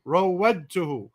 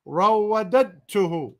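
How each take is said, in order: First: رَوَّدْتُهُ said cleanly as raw-wad-tu-hu; the correct reading رَوَّدْتُهُ, quick and clean; corrected pronunciation. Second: رَوَّدَدْتُهُ misread with an extra dd syllable; the wrong reading رَوَّدَدْتُهُ with an added syllable; mispronounced. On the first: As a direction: fix it to رَوَّدْتُهُ with a single d. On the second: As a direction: stumble into رَوَّدَدْتُهُ with a doubled d sound. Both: Shown as a demonstration. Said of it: "no, not رَوَّدَدْتُهُ".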